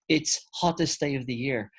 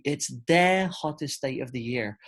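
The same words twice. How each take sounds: First: Said in the usual way. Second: "the" in "It's the hottest day of the year" stressed as the corrected word. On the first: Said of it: "So we don't say". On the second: Shown as a demonstration. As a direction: lean on "the" in the corrected sentence. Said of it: "it needs to be".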